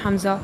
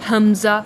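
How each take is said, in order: First: The sound is made forward, not from the throat. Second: The sound is made deep in the throat. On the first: The speaker calls it wrong. "कुछ लोग पढ़ते हैं हमज़ा, ये ऐसे नहीं पढ़ना है" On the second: The speaker calls it right. "शुरू हलक से निकालने हैं"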